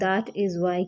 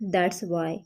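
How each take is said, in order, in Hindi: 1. 'that is' शब्द पूरे बोले जाते हैं। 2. 'that is' शब्द 'that's' में संकुचित हो जाते हैं। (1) "that is why की जगह" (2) "फ्लुएंटली हम बोलते हैं ना जल्दी जल्दी"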